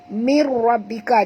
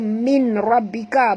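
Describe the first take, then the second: First: The n merges into the following r. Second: The n is pronounced clearly before the r. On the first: The speaker calls it right. "bunyi dia mir, mir ya" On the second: The speaker calls it wrong. "jangan baca min rabbika, bukan min ya"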